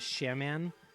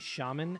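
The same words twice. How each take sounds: First: It does not sound like Charmin. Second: It sounds like the word Charmin. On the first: The speaker calls it wrong. "which is not the recommended way to pronounce that" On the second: The speaker calls it right. "I thought it sounded like toilet paper"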